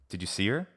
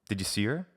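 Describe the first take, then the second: No difference in how they are said.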